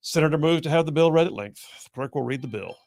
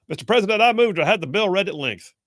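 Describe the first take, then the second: First: Lightly voiced chair's procedural monotone; presiding officer. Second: Raised, urgent mock senator voice; senator making a motion. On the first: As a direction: restate the motion evenly, like a formality. Acting out the presiding officer's reply. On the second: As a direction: call out a formal motion, pitched high. Acting out a floor motion.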